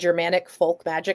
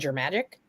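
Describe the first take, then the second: First: All three words are said in full. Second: The words are squeezed into one short word. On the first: "instead of saying Germanic folk magic" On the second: "I was eliding everything"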